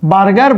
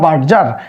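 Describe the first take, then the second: First: The middle consonant is a hard g sound. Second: The middle consonant is a soft j sound. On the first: "বার্গারও বলা যায়" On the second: "বার্জারও বলা যায়"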